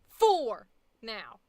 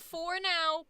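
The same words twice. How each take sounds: First: The two words are said clearly separated. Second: The two words are run together as one.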